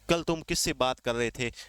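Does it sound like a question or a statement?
statement. It is said flatly, ending like a statement. It states something rather than asking. The speaker calls it wrong.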